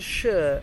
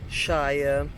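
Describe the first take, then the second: First: The word has a weak, reduced vowel. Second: The word has a full vowel, like 'fire'. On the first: It is the ending of a place name. "as soon as you connect shire to a city ... then it changes to shire" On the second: It is the word on its own. "which means county, will be pronounced shire"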